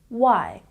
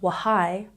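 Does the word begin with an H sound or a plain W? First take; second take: plain W; H sound. First: The word starts with a plain W, no H. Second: An audible H sound comes before the W. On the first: The speaker calls it right. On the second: The speaker calls it wrong.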